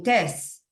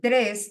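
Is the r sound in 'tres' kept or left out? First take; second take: left out; kept. First: The r sound after the t is dropped. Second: The r sound after the t is pronounced. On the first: This is how the child actually says it. The speaker calls it wrong. "dicen tres. ... omiten ciertas letras" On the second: This is the word the child intends. The speaker calls it right. "si quieren decir"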